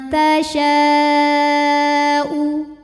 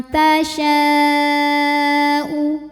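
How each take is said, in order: No difference in how they are said.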